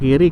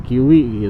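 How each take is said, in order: First: The middle consonant is a clear r sound. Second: The middle consonant is replaced by a w sound. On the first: The word is said normally. "kalau ngomong kiri" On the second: The speaker has a lisp. "Cadel gitu lah ngomongnya"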